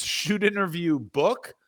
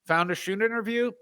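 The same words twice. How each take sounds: First: "Shoot interview book" said slowly, word by word; slow, drawn out. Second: "interview" rising, lifted high; stressed interview. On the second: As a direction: pitch up on "interview". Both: Shown as a demonstration. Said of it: "If he says".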